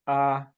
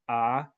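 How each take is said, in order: First: The pitch stays mid and level. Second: The pitch goes up during the vowel. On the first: "the mid-flat tone" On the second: "for the rising tone"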